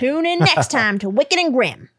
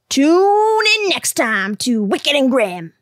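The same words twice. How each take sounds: First: It is said in an ordinary speaking voice. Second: It is said in a put-on announcer voice. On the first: "You need to get more announcy about it" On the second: "we'll both do our best announcer voice. ... That was actually pretty shitty"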